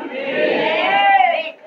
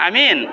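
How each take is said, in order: First: Long high chanted amen, much higher; drawn-out sung amen. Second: Said in the usual way. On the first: Acted. Preacher leading the crowd in amen, sung long and high. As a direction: stretch the amen into a rising chant.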